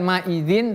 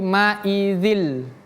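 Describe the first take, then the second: First: The word ends with a clear n sound. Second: The n merges into an l sound. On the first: The speaker calls it wrong. "bukan ma'idzin" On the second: The speaker calls it right. "tapi ma'idzil"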